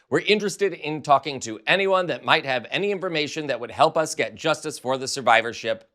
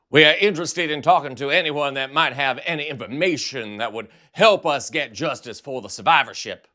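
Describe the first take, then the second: First: It is read in the speaker's normal voice. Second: It is read in a Foghorn Leghorn voice.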